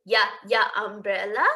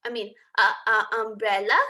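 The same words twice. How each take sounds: First: "Yeah, yeah, umbrella" with a mistaken yeah for uh; wrong "yeah" sound. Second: "uh, uh, umbrella" with a short open uh; corrected uh sound. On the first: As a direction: slip saying "Yeah" instead of "uh". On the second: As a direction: fix the slip, saying "uh" clearly. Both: Shown as a demonstration.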